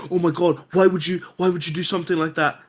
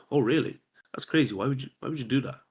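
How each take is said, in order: First: Imitated shocked reaction, higher pitched; mock an emotional spike of alarm; overreacting. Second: Casual, nonchalant. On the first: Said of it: "too much of a spike". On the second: Retold or imitated. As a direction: react as if it's no big deal. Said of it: "very casual, very nonchalant".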